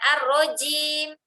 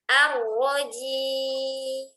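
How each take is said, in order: First: The j is hard, with more breath. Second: The j is soft, with little breath. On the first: The speaker calls it wrong. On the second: The speaker calls it right.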